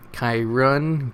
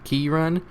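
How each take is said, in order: First: "Kyrun" with first syllable as "kai"; alternative pronunciation. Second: "Kyrun" as KEE-run, rising questioningly; alternative pronunciation. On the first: Reader trying unique spellings of names, "Kyrun" as KAI-run. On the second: Reader trying unique spellings of names, "Kyrun" as questioning KEE-run. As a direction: say "Kyrun" with first syllable "kee", higher. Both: Shown as a demonstration.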